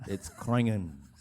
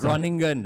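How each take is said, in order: First: The name is said with a Dutch-style pronunciation. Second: The name is said with an anglicized pronunciation. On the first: The speaker calls it right. "He pronounced it right this time" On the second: The speaker calls it wrong. "It's not"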